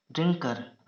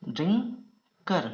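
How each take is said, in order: First: Said in the usual way. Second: drinker in two parts, ड्रिं, long pause, कर; split into syllables. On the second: Shown as a demonstration. Teacher dictating to shorthand students, drinker slowly split in two.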